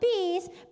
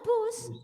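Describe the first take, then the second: First: The word is said with an 'i' vowel. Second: The word is said with a 'u' vowel. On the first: This is the non-standard form. The speaker calls it wrong. "Bis is not baku" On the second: This is the standard form. The speaker calls it right. "ya bus"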